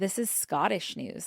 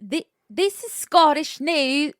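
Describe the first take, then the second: First: It is said in the speaker's own accent. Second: It is said in a put-on Scottish accent.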